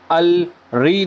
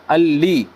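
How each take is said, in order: First: अल री with a separate री sound; wrong reading. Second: अल ली with one joined ल sound; right reading. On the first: Teacher showing the wrong reading to avoid, plain wrong take. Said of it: "अल री नहीं पढ़ेंगे इसको". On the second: Teacher showing the correct reading, joined ल. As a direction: say it right, अल ली with a single ल. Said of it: "एक ही लाम पढ़ेंगे". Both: Shown as a demonstration.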